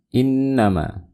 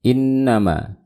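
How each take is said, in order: The two takes are said the same way.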